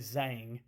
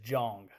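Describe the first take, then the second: First: The name begins with a soft 'zh' sound. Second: The name begins with a hard 'j' sound. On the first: "I've heard a lot of people say Zhang" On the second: "the pronunciation is Jong with a J"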